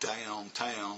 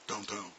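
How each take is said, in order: First: The word is said slowly with full vowels. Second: The word is said fast with vowels squeezed. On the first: The speaker calls it right. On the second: The speaker calls it wrong.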